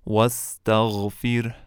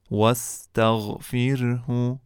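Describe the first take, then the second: First: واستغفره stopped as "wastaghfir", two silent final consonants; teacher ends واستغفره on the silent consonants; pausal form. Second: واستغفره chanted slowly as "wastaghfirhu"; teacher recites واستغفره slowly with its full ending; recited in full. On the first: Teacher shows students the stop form of the word. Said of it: "که در هنگام وقف". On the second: Teacher recites the example for students, slow and full. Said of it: "مانند کلمهٔ". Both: Shown as a demonstration.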